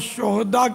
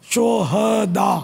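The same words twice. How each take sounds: First: The h is followed directly by a consonant. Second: A short a vowel follows the h. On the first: It means scoundrels. The speaker calls it wrong. "शोहदा ये हिंदी लफ्ज़ है और शोहदा के माना बदमाश" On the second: It means martyrs. The speaker calls it right. "हाँ पर ज़बर पढ़ेंगे। शोहदा ये अरबी लफ्ज़ है"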